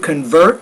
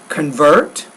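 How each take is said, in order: First: The stressed syllable is raised in pitch. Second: The stressed syllable stays flat in pitch. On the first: The speaker calls it right. "So you want to read it like that" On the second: The speaker calls it wrong. "you're not really changing the pitch in your voice"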